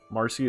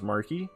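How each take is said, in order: First: The middle consonant is an s sound. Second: The middle consonant is a k sound. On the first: "do you also pronounce Marcy as Marky?" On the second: "pronounce Marcy as Marky"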